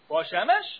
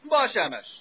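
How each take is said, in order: First: It is said with a questioning tune. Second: It is said with a statement tune. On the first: It asks something. "The question and the answer are the exact same words" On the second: It answers the question. "The only difference is how you inflect it"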